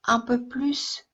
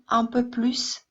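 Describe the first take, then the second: No difference in how they are said.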